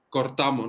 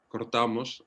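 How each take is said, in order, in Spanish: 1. Se dice con pronunciación andaluza. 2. Se dice con pronunciación castellana. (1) "Cortamos, no digo cortamos" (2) "serían los castellanos"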